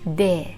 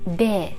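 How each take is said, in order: Both takes have the same delivery.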